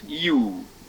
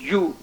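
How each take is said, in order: First: The vowel is held longer. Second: The vowel is held briefly. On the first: "in the long sound it's U" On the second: "as a short sound is U"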